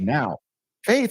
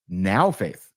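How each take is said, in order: First: There is a pause between the two words. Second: The two words run together without a pause. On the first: Now introduces the sentence, separate from faith. The speaker calls it wrong. "they read it with a comma" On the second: It means faith in the present moment. The speaker calls it right. "There is no comma"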